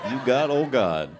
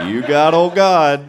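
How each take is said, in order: First: Said in the usual way. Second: Big, slow, drawn-out holler; loud, hammed-up concession; loud proclamation. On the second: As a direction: belt it out slowly, stretching the words. Repeats line, big then small.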